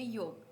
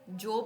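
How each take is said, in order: First: The word begins with a Y sound. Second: The word begins with a J sound. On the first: The speaker calls it right. "इसको बोलेंगे योब" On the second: The speaker calls it wrong. "जोब नहीं"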